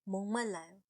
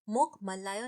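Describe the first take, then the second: First: The first word ends with an ng sound. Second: The first word ends with a k sound. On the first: The speaker calls it right. "इसे बोलते हैं मोंग मल्लायो" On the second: The speaker calls it wrong. "इसे मोक मल्लायो नहीं बोलते हैं"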